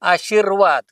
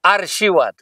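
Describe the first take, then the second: First: The r sound comes after the shee syllable. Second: The r sound comes before the shee syllable. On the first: The speaker calls it right. "शब्द प्रत्यक्ष काय आशीर्वाद" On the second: The speaker calls it wrong. "ते र धरून आरशीवाद"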